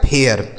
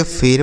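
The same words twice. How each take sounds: First: फेयर said as "phe-yar", e gliding into a before r; correct air glide. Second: फिर said as "pher", one long e straight into r; wrong ai reading. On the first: Teacher models the right reading, फेयर as gliding "phe-yar". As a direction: open the e of फेयर into "eya" before the r. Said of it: "यह हो गया इसका सही उच्चारण". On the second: Teacher shows class the misreading, फिर as one-syllable "pher". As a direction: read फिर with a plain long e, no glide. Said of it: "क्या हम इसे ऐसे ही पढ़ेंगे". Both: Shown as a demonstration.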